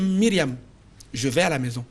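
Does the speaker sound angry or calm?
calm. The sentence is said calmly, without anger. "vous sentez en moi de la colère? Non"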